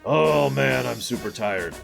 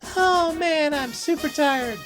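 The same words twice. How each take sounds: First: It is said in an old man's voice. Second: It is said in a young child's voice. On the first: An old man is speaking. "Sid is saying it like an old man" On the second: A kid is speaking. "Mid is saying it, you know, like a kid"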